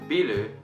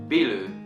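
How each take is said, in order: First: It is said with Japanese sounds, as two syllables. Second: The same.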